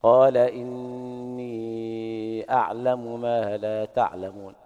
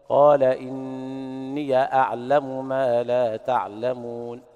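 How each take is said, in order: First: Slow chant with إني ending on a long i and no vowel after it; slowly chanted إنيْ أعلم; ya with sukun. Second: Slow chant with the ya of إني carried on an open a; slowly chanted إنيَ أعلم; ya with fatha. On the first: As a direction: recite إني with a silent ya, straight into أعلم. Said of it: "وباقي القراء بالإسكان". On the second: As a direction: recite إني as إنيَ, the final ya opened with a fatha. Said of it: "الجماعة يقرؤون بالفتح". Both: Shown as a demonstration.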